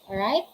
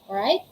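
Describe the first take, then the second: The two takes are said the same way.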